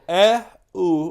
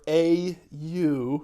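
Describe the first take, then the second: First: The letters are named with French letter names. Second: The letters are named with English letter names. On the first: "I just said it in French" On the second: "Or for the American English speakers"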